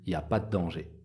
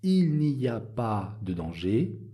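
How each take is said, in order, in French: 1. Les mots 'il' et 'ne' sont omis. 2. Les mots 'il' et 'ne' sont entièrement prononcés. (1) "J'enlève le il et j'enlève le ne" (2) "au lieu de dire"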